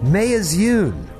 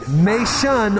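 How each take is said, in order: First: The name is said in three syllables. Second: The name is said in two syllables. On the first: The speaker calls it wrong. "or as it reads" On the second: The speaker calls it right. "May Shun sounds good"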